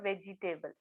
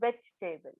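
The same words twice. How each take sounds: First: The second 'e' is pronounced, giving four syllables. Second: The second 'e' is silent, giving three syllables. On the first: The speaker calls it wrong. "It is not व्हेजिटेबल" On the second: The speaker calls it right. "तो silent आहे ... it is व्हेजिटेबल"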